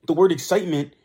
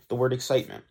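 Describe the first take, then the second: First: High excited pitch. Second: Said in the usual way. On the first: Shown as a demonstration. Podcaster showing listeners how excitement sounds, high and loud. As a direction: lift excitement up, louder and bright with energy. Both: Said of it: "you would say with a high pitch".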